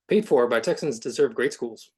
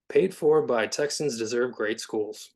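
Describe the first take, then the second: First: It is said fast, in a robotic way. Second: It is said more slowly and naturally.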